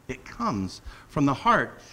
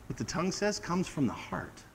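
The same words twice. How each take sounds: First: Heart leaned on, slower and falling; slow down and land hard on "heart"; stress on heart. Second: Said in the usual way. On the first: Shown as a demonstration. Preacher repeats the point, stress on "heart".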